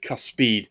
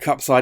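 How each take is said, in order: First: The word begins with cus, as in cuspid. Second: The word begins with cup, like cup side. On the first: The speaker calls it right. "it's Cuspide" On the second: The speaker calls it wrong. "It's not Cupside"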